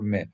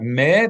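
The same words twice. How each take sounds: First: The vowel is short and clipped. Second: The vowel is held longer. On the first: The speaker calls it right. "a short meh" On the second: The speaker calls it wrong. "not meh"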